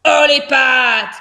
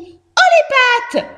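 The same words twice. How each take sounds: First: Slow growled command through the teeth; terrible, ice-cold voice. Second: Very high, loud mouse squeal; mouse quoting the bandit. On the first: Hamster aiming at the fox, terrible ice-cold voice. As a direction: grind out the order, cold and menacing. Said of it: "d'une voix terrible, froide comme la glace". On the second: Mouse re-enacting the hamster's order, high squeal. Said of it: "explique Josette". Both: A narrator's reading.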